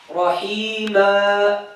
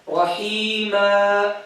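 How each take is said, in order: The two takes are said the same way.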